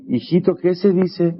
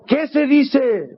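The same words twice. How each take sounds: First: Put-on slower, higher prompt to the child; father nudging his son, a bit higher and slower; insistent prompt. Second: Very high and very slow drawn-out prompt; nervous father pressing his silent son, very high and very slow. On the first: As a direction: coax the boy in front of guests. Father prompts again, more insistent. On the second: Retold or imitated. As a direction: plead anxiously, stretching every word. Papá nervioso.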